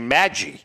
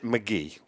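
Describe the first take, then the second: First: The name sounds like 'Maggie', stress on first syllable. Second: The name sounds like 'McGee', stress on second syllable. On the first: This is how collectors used to say it. The speaker calls it wrong. "first we used to say Maggie" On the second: This is how the player himself said it. The speaker calls it right. "he pronounced it McGee"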